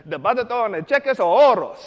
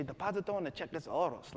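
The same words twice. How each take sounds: First: Loud, higher, emphatic Spanish; overdone Spanish recital; eager learner. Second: Said in the usual way. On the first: Retold or imitated. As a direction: proudly belt out the phrase just learned. Learner repeats the phrase proudly.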